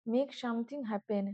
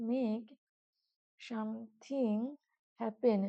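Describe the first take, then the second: First: Said in the usual way. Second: "make ... something ... happen" one word at a time, with long pauses; slow dictation. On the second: Shown as a demonstration. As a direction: softly stretch "something" between pauses, as if dictating. Teacher repeats definition word by word. ("make something happen" থেমে থেমে, ধীরে ধীরে বলা)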